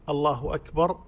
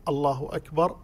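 Both takes have the same delivery.

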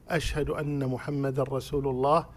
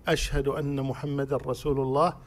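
No difference in how they are said.

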